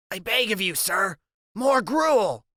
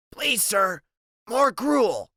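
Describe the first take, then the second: First: Slow, drawn-out theatrical plea; milk the plea, stretching each word; dramatic begging. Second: High, pleading little beggar; begging orphan voice. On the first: Freak repeats begging line, dramatic. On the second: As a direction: beg for more like a starving orphan. Freak's begging Oliver Twist line. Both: Acted.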